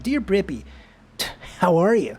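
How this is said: It is read in a put-on jock voice.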